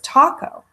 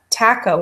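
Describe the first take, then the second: First: The word taco is said the standard way. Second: The word taco is said the British way. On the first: The speaker calls it right. "the agreed upon pronunciation is taco" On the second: The speaker calls it wrong. "my mother's English and she says taco"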